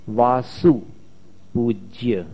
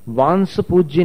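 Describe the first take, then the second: First: The first syllable is plain 'vaa', then 'su'. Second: The first syllable is nasalized, like 'vaans'. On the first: The speaker calls it right. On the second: The speaker calls it wrong.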